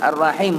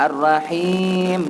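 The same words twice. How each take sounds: First: The vowel in the last syllable is short. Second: The vowel in the last syllable is long. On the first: It means ordinary kindness. The speaker calls it wrong. "Kalau Ar-Rahim tu sifat penyayang biasa" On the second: It means God the Most Merciful. The speaker calls it right. "Ar-Rahim maksudnya Allah yang Maha Penyayang"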